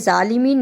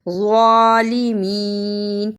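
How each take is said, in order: First: The word starts with a j sound. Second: The word starts with a z sound. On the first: The speaker calls it wrong. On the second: The speaker calls it right.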